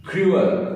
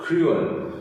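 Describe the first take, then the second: First: क्रूअल lifted and split into क्रू-अल; syllable demo. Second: क्रूअल said higher as क्रू-अल; syllable demo. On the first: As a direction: pitch क्रूअल up, syllables apart. (शब्दांश अलग करके क्रूअल) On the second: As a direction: repeat क्रूअल split in two. (ऊँचे स्वर में क्रू-अल) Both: Shown as a demonstration. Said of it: "ऐसे पढ़ेंगे क्रूअल".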